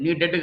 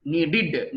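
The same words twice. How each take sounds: First: నీడెడ్ ending in "ded"; mistaken pronunciation. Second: నీడెడ్ ending in "did"; correct pronunciation. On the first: (నీడెడ్ చివర "డెడ్") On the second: (నీడెడ్ చివర "డిడ్") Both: Shown as a demonstration. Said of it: "నీడెడ్ కాదు".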